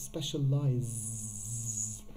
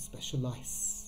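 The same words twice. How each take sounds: First: The middle consonant is a buzzing Z sound. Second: The middle consonant is a hissing S sound. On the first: The speaker calls it right. "It's specialize" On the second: The speaker calls it wrong. "It's not specialize"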